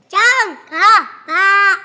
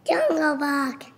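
First: Slow, loud, stretched repeat; loud and drawn out. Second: Said in the usual way. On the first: Real, not acted. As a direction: belt it out slowly for emphasis. Kid repeats his answer louder.

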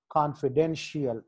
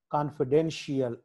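The two takes are said the same way.

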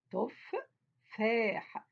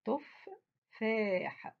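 First: تفاح repeated, stretched very slowly; teacher repeating تفاح slowly for spelling. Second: تفاح drawn out very slowly syllable by syllable; teacher reading تفاح slowly to the class. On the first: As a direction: draw out تفاح again, letter by letter. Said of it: "تو". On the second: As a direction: stretch out تفاح for the children. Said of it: "الكلمة اللي بعديها عندي كلمة". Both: Shown as a demonstration.

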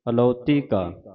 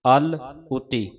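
First: ਅਲੌਤੀ as one word, a-lau-tee; correct joined reading. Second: ਅਲ ਉਤੀ slowly broken in two, al, uti; wrong split reading. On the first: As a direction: read ਅਲੌਤੀ ਕਾ with no break after al. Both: Shown as a demonstration. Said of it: "ਇਸ ਤਰ੍ਹਾਂ ਨਹੀਂ ਪੜ੍ਹਨਾ".

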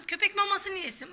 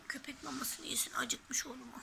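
First: Said in the usual way. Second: Soft breathy whisper. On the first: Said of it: "repeated whispered". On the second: Shown as a demonstration. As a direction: whisper it to the toy dog. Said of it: "repeated as whisper".

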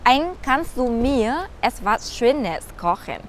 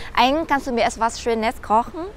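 First: Repeated even slower, every word drawn out. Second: Slow, careful teacher read of the German question; slow model sentence. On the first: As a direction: go over it again very slowly for learners. (nhắc lại thật chậm từng chữ) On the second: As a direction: say it slowly for learners to copy. (đọc chậm rãi như mẫu cho học viên) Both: Shown as a demonstration. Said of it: "các bạn sẽ nói là".

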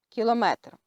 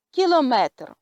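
First: Said in the usual way. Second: French "Кілометр", stress on the last syllable; French pronunciation. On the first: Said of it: "я буду читати назву літер і приклади". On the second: Shown as a demonstration. Teacher reads French example "Кілометр" to learners, French pronunciation. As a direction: read "Кілометр" clearly as a French word. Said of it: "наголос падає на останній склад".

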